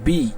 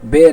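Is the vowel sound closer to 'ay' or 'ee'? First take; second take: ee; ay. First: The vowel is a close 'i' sound. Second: The vowel is an open 'e' sound. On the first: The speaker calls it right. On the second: The speaker calls it wrong. "বা জের বে না"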